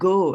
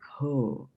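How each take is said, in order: First: The first consonant is plain, without breath. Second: The first consonant is aspirated, with breath. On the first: The speaker calls it wrong. "It is not go as in goat" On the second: The speaker calls it right. "There's a H here"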